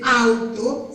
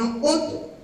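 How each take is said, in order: First: The word starts with an 'ah-oo' sound. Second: The word starts with an 'oh' sound. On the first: The speaker calls it wrong. "no van a decir auto" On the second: The speaker calls it right. "sino auto"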